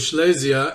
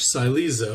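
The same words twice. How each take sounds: First: The name is said with a Hebrew-style pronunciation. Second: The name is said with an English pronunciation. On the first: The speaker calls it right. "the Hebrew" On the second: The speaker calls it wrong. "the English, ... definitely sounds inaccurate"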